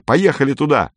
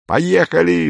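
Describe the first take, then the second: First: Higher, eager rallying cry; excited call. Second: Much higher, eager burst of agreement; exclaimed. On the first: Lin urging the boys to go to the volcanoes, excited. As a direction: pull the friends along, all fired up. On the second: Paul leaping up to back Lin's plan, exclaiming. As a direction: jump up and cry it out. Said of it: "вскричал Поль и вскочил". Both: A narrator's reading.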